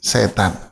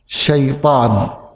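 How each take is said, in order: First: The word is pronounced the Indonesian way. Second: The word is pronounced the Arabic way. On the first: "Pengucapan Indonesianya setan" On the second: "Pengucapan Arabnya gimana?"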